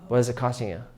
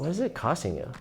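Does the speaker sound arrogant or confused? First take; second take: arrogant; confused. First: The question sounds arrogant and detached. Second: The question sounds puzzled and curious. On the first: The speaker calls it wrong. "someone perceives you as being like arrogant" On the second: The speaker calls it right. "I'm confused. Just be like, I'm confused"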